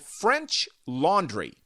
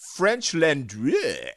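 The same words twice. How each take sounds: First: It is said in a plain English accent. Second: It is said in a mock French accent.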